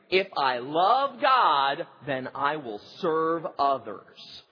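It is said with conviction and energy. The speaker truly means it. The speaker calls it right. "Let's say it again like you mean it"

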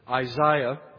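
The name is said with an English pronunciation.

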